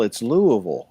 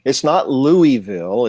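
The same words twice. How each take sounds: First: Louisville slurred to "LOO-uh-vul"; local pronunciation of Louisville. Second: Louisville with a full "LOO-ee-VILL"; Louisville as spelled. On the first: Correcting outsiders on Southern names, Louisville as "Loo-uh-vul". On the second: Showing how outsiders say it, Louisville as "Loo-ee-vill". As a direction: say Louisville letter by letter, clear "ee" and "ville". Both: Shown as a demonstration. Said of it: "Things aren't spoken as spelled".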